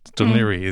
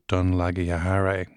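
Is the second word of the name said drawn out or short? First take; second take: short; drawn out. First: The second word is said with two syllables. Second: The second word is said with many syllables. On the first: The speaker calls it right. "he should have got it right" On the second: The speaker calls it wrong. "How could you possibly mispronounce your word?"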